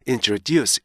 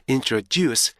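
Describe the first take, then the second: The two takes are said the same way.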